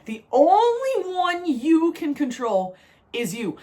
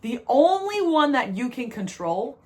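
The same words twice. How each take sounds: First: Slow, each word weighted, ONLY leaned on; slowed-down, deliberate restatement; slow emphatic repeat. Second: Said in the usual way. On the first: Shown as a demonstration. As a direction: lay down "The only one you can control is you" slowly, stressing "only". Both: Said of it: "Let me say it again".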